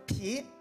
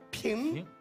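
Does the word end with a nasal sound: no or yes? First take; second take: no; yes. First: It is said with open mouth, no nasal ending. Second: It is said through the nose with nasal ending. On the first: The speaker calls it wrong. "他就张着大嘴说皮" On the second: The speaker calls it right. "用鼻子说，用鼻子发音"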